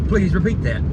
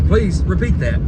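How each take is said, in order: The two takes are said the same way.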